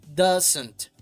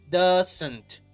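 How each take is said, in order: Both takes have the same delivery.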